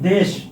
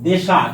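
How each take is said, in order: First: The word ends on the final consonant. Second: An extra vowel is added after the final consonant.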